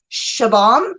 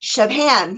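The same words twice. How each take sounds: First: "Shabam" slowly, with no h after the b; name attempt. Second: "Shabham" with an h after the b; corrected name attempt. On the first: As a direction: sound out "Shabam" carefully, plain b. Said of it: "I can never say his name right". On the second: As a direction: try "Shabham", breaking it as Shab-ham. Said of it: "it's funny how I say it". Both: Shown as a demonstration.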